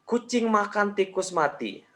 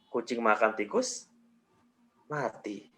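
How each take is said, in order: First: It is said with no pause at all. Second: There is a pause after "tikus". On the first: "tanpa jeda" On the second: "Jeda berikutnya setelah tikus"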